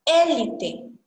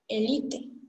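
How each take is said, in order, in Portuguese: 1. A sílaba tônica é a primeira. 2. A sílaba tônica é a segunda. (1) "o acento E com acento, parte mais forte" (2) "em português, é a parte mais forte é a parte da L"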